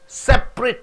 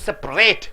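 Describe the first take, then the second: First: The stress is on the first syllable. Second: The stress is on the last syllable. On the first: It is an adjective meaning individual. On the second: It is a verb.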